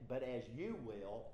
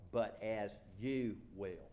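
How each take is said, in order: First: "you" singled out with a pitch peak; emphatic you. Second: Slow, deliberate "but as you will"; measured, weighty close of a verse; scripture reading. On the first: Shown as a demonstration. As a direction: stress "you" in "but as you will". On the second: Acted. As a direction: draw out "you" and let "will" fall.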